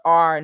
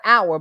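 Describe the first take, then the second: First: "our" drawn out like the word "are". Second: "our" in two syllables, like hour. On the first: Mocking a misspelt message, "our" said as "are". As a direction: read "our" slowly as a long AR. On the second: Correcting a misspelt message, "our" said as OW-er. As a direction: say "our" clearly as OW-er. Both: Shown as a demonstration. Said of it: "You need to proofread your stuff".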